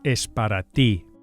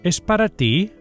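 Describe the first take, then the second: First: The voice falls at the end like a statement. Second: The voice rises at the end like a question. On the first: It states that it is for you. "the way to say it's for you is" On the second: It asks whether it is for you. "Only the inflection of the words changes, giving it a questioning tone"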